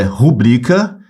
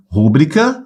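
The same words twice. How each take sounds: First: Rubrica slowly, with a long BRI; stress on second syllable. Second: Rúbrica stressed on RÚ; wrong first-syllable stress. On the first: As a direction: stretch the middle syllable of rubrica. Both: Shown as a demonstration. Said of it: "a pronúncia não é rúbrica".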